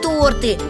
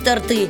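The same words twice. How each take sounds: First: The stress is on the first syllable. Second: The stress is on the second syllable. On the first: The speaker calls it right. "Множественная форма этого слова – торты" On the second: The speaker calls it wrong. "а не торты"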